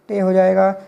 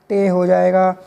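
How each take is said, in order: Both takes have the same delivery.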